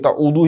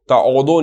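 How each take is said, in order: First: The word ends in an 'oo' sound. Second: The word ends in an 'o' sound. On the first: The speaker calls it right. "ताउदू ही कहेंगे इसको" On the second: The speaker calls it wrong. "ताउदो नहीं कहेंगे"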